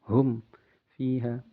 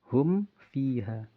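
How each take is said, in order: First: There is a short break between hum and fiha. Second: Hum runs straight into fiha without a break. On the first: The speaker calls it wrong. "seperti ada saktahnya" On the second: The speaker calls it right. "Tapi hum, ya, jelas"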